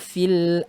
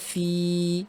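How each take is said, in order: First: The final vowel is short and linked onward. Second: The final vowel is held long before stopping. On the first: The reading continues into the next word. "ketika wasol tidak dianggap madnya" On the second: The reading stops at this word. "ketika berhenti wa ma fi, jadi panjang"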